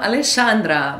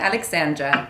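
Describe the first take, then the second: First: The name has a Brazilian Portuguese pronunciation. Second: The name has an English pronunciation. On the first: This is how Brazilians usually say it. "Normalmente eles falam Alexandra" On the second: This is how it is said in English. "mas em inglês é Alexandra"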